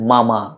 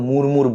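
First: It sounds like 'mama', with no r sound. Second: Both syllables have an 'ur' vowel with r. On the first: The speaker calls it right. "সঠিক উচ্চারণ হচ্ছে মামা, আমরা যেই মামা মামির সেই মামা" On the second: The speaker calls it wrong. "অনেকে হয়তো মুরমুর বলে"

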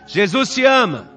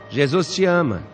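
First: It is said a little louder. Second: It is said very quietly.

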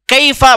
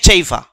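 First: The word starts with a k sound. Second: The word starts with a ch sound.

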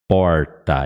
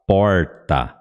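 First: The R is said with the tongue curled back. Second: The R is said with the tongue curled back.

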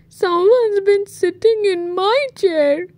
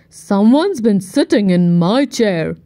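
First: It is cried in Baby Bear's voice. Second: It is growled in Daddy Bear's voice.

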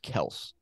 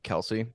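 First: The name is said with one syllable. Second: The name is said with two syllables. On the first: The speaker calls it right. "but apparently it's Kels" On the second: The speaker calls it wrong. "apparently it's not Kelsey"

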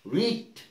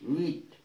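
No difference in how they are said.

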